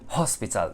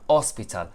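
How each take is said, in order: First: The word starts with an h sound. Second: The word starts without an h sound. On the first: The speaker calls it right. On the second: The speaker calls it wrong.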